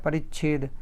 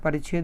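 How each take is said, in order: First: A brief stop comes before the 'chh' sound. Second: The 'chh' follows with no stop before it. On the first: The speaker calls it right. "छेद ऐसे थोड़ा सा stoppage आएगा" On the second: The speaker calls it wrong. "परिच्छेद नहीं होता है"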